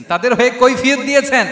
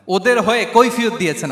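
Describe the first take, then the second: First: High, loud insistence; emphatic repetition. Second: Said in the usual way. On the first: Real, not acted. Preacher repeats to the crowd that he pleaded for them, emphatically. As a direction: raise pitch and volume to hammer it. Same point repeated with force.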